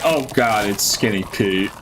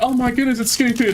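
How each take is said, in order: First: It sounds annoyed and fed up. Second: It sounds excited and happy.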